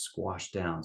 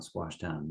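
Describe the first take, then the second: First: Said in the usual way. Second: "squashed down" repeated much softer, fading; quiet echo. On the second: Shown as a demonstration. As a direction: let "squashed down" sink into a soft echo.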